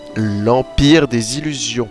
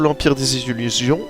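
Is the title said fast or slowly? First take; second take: slowly; fast. First: The title is said more slowly. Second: The title is said quickly. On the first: The speaker calls it right. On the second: The speaker calls it wrong.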